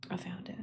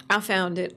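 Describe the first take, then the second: First: Whispered under the breath; very soft, private little whisper; hushed, to self. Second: Said in the usual way. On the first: Real, not acted. Streamer to self on finding the playlist, whispered.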